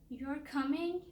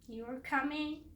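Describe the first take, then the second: First: It sounds disappointed and unhappy. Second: It sounds disappointed and unhappy.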